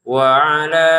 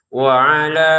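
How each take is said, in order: The two takes are said the same way.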